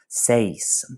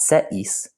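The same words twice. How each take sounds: First: The two vowels glide together into one syllable. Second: The two vowels are said as separate syllables. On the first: The speaker calls it right. "which creates a diphthong" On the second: The speaker calls it wrong. "So it's not seis, they blend into each other"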